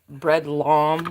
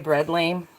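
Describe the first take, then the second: First: The second word has an open 'ah' vowel. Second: The second word rhymes with 'game'.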